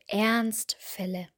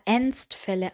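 First: The first vowel is an open, a-like vocalized R. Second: The first vowel is a closed schwa-like sound. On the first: The speaker calls it right. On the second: The speaker calls it wrong. "Hier habe ich öfter ... gehört"

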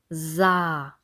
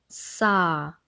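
First: The s is buzzed with voice. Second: The s is hissed without voice. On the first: "und dem stimmhaften S" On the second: "Kontrast üben zwischen dem stimmlosen S"

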